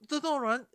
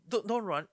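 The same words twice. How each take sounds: First: It is said anxiously, sounding scared. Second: It is said flatly, without any fear. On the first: The speaker calls it right. "you have to sound scared" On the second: The speaker calls it wrong. "you don't say don't don't run"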